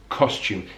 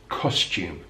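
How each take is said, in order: First: The first vowel is a rounded 'oh' sound. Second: The same.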